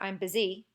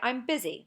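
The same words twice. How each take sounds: First: The stress is on the second syllable of busy. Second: The stress is on the first syllable of busy. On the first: The speaker calls it wrong. "You don't say I'm busy" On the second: The speaker calls it right. "Same thing with busy. Say I'm busy"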